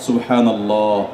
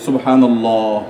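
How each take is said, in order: The two takes are said the same way.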